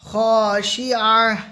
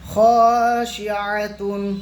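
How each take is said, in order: First: The word ends with a stopped 'h' sound. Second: The word ends with a full 'tun' ending. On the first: The reader stops at the end of the verse. "থামলে শেষের অক্ষরটা সাকিন করতে হয়... হায় সাকিনা হয়ে যাবে" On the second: The reading continues without a stop. "তাদু পেশতুন খাশিআতুন"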